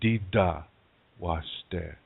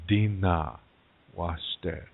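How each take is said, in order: First: It is said in the Dakota dialect. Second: It is said in the Nakota dialect.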